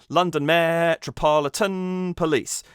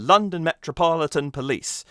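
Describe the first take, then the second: First: The stresses fall off the natural rhythm. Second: The stresses fall in a natural, even rhythm. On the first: The speaker calls it wrong. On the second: The speaker calls it right.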